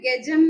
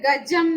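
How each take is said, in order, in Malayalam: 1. ആദ്യ സ്വരത്തിൽ 'e' യുടെ ഛായ കലർന്നിരിക്കുന്നു. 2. ആദ്യ സ്വരം ശുദ്ധമായ തുറന്ന 'a' ആണ്. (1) "മലയാളത്തിൽ ഗജം എന്നാണ് നമ്മൾ പറയുന്നത്" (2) "ഗജം എന്ന് സംസ്കൃതത്തിൽ പറയാൻ പാടുള്ളൂ"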